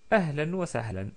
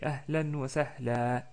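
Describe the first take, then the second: First: The last word ends in an n. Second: The last word ends in a long a. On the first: "Ou ahlan wa sahlan, comme d'habitude" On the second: "on s'arrête avec un prolongement de fatha"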